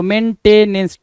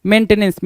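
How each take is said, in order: First: मेंटेनेंस drawn out as "men - te - nens"; syllable by syllable. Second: Said in the usual way. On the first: Shown as a demonstration. Teacher sounds out the word to spell it, मेंटेनेंस in slow syllables. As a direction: separate the three syllables of मेंटेनेंस slowly.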